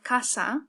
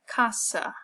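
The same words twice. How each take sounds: First: The final vowel is a full, open 'ah'. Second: The final vowel is a weak, reduced 'uh'. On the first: The speaker calls it right. "Spanish we have casa" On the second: The speaker calls it wrong. "American speakers tend to say something like casa, that uh sound at the end"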